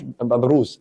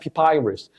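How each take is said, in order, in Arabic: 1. المقطع الثاني فيه حرف 'oo'. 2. المقطع الثاني فيه حرف 'eye'. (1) "ما اسمهاش ببروس" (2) "اسمها بيبايرس"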